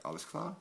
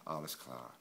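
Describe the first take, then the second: First: "Alles klar?" with a sharp high rise on "klar"; "Alles klar?" asked, pitch climbing at the end; as a question. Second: "Alles klar." falling low and settled on "klar"; "Alles klar." with a falling tune; as a statement. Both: Shown as a demonstration. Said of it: "ask this like a question".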